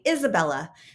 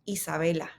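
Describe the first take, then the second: First: The name is said with English sounds. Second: The name is said with Spanish sounds. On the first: The speaker calls it wrong. "most people would look at this name and say" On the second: The speaker calls it right. "This name is in fact Isabela"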